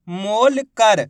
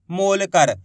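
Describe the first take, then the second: First: मोल कर in two parts, मोल held long; split into parts. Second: Said in the usual way. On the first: Shown as a demonstration. Teacher helping learners hear letters, मोल कर split. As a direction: break मोल कर apart before कर. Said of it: "बोलते जाइए, आपको अक्षर पता चलते जाएंगे". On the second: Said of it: "आप जैसे इस शब्द का उच्चारण करोगे".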